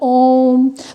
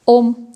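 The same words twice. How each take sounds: First: The vowel is drawn out to triple length. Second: The vowel is said with ordinary short length.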